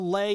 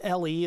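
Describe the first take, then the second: First: It is said as one word, French style. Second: It is said as two separate letter names. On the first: "it's just fun to say it as a French accent" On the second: "as in low energy Bluetooth"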